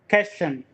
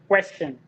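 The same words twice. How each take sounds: First: The word is said with a French-sounding pronunciation. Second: The word is said with an English pronunciation. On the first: The speaker calls it wrong. "Question is like French French pronunciation" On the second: The speaker calls it right. "We pronounce it question"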